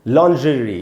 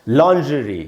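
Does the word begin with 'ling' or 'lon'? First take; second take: lon; lon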